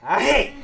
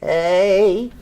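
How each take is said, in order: First: The word is said like a sneeze. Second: The word is said in a sickly voice. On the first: "if I say it like I'm sneezing" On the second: "If I say it sickly"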